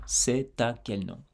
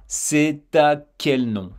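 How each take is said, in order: First: Said in the usual way. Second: "C'est à quel nom" slowly, t joined to "à"; slow liaison. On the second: Shown as a demonstration. Teacher to learner, redoing the slow demo. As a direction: stretch out "C'est à" to show the link. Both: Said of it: "je vais reprendre".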